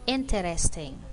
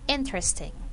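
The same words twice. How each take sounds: First: The word is said with four syllables. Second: The word is said with three syllables. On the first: "sometimes people will say it with four syllables" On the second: "but in speaking"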